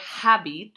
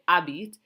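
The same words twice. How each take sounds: First: The word begins with an audible H sound. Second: The word begins with a silent H sound. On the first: The speaker calls it wrong. "we don't say habite" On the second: The speaker calls it right. "we say habite. So it sounds like a vowel"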